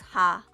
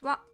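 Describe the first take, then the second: First: The syllable starts with an h sound. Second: The syllable starts with a w sound. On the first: It is the character's ordinary reading. "So this is ha" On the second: It is used as a particle. "It is sometimes pronounced as wa. When it is used as a particle"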